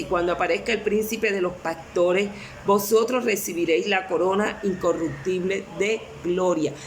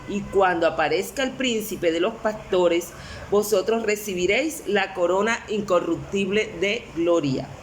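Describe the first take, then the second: No difference in how they are said.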